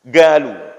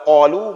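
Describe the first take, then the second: First: It begins with a hard g sound. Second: It begins with a deep throat q sound.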